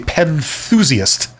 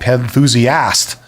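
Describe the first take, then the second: First: It is said in a British accent. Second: It is said in an American accent. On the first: "if you're from Britain, you would say" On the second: "if you're from the United States, you'd say"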